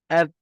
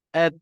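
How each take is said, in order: The two takes are said the same way.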